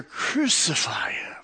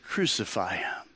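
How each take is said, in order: First: A slow, hoarse-free whisper instead of a shout; whispered crowd cry. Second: Low, soft, much quieter retelling of the crowd; crowd answer. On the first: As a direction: breathe it out as a chilling whisper. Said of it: "they shouted all the louder". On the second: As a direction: let the cry drop away, hushed and heavy. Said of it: "And they all answered". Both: Retold or imitated.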